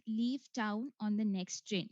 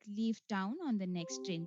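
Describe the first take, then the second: First: Slow, deliberate dictation of the sentence; slow test prompt. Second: Said in the usual way. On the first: Shown as a demonstration. Exam voice reading the sentence to the candidate, slow and clear. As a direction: read it out slowly like a recorded exam voice. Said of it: "you will listen to a voice saying". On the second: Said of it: "You just have to repeat it".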